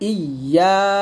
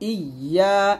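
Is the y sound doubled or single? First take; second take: doubled; doubled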